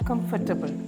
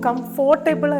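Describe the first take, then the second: First: The second syllable has a weak 'er' vowel. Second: The second syllable has a full 'or' vowel. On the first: The speaker calls it right. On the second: The speaker calls it wrong.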